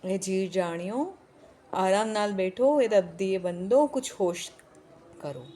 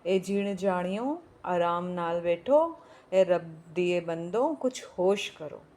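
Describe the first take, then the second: First: Put-on pleading old woman, louder. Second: Put-on pleading old woman. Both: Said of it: "बुढ़िया बीच में फिर बोल रही".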